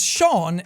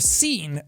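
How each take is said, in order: First: The name begins with an 'sh' sound. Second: The name begins with an 's' sound. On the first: "Sean is pronounced as Sean" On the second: "instead of Scene"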